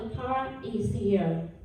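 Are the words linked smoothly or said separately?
separately. The words are said separately, unlinked.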